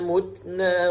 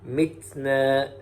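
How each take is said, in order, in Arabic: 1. تُنطق الكلمة مثل mutna. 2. تُنطق الكلمة مثل mitna.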